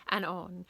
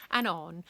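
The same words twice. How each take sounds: The two takes are said the same way.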